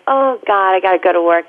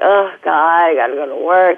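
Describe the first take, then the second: First: It sounds eager and excited about going. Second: It sounds weary and dreading going.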